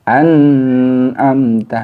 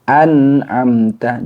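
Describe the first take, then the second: First: The n sound is held and stretched out. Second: The n sound is pronounced clearly and briefly. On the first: The speaker calls it wrong. "Tidak boleh tawallud atau ditahan... seperti itu tidak boleh" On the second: The speaker calls it right. "nun sukunnya dibaca jelas"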